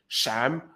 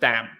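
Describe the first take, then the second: First: The first sound is like sh. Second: The first sound is a stop, not an S. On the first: "palatization of S, which means it sounds like a sh more than an S" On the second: "That's stopping. That's you stop the S"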